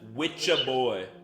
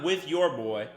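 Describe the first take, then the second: First: The words run together as witcha. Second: The words are said fully as with your. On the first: The speaker calls it right. "F Witcha Boy" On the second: The speaker calls it wrong. "Not with your boy"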